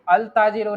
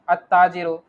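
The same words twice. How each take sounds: First: अल ताजिरु with the ल wrongly sounded; wrong pronunciation. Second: अत्ताजिरु with a doubled त and no ल; Arabic pronunciation. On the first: Teacher demonstrates the wrong form of the word. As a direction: say अल ताजिरु with a separate ल, the mistake. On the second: Teacher corrects अल ताजिरु to अत्ताजिरु for the student. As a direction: run अ straight into a doubled त in अत्ताजिरु. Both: Shown as a demonstration. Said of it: "अल ताजिरु नहीं".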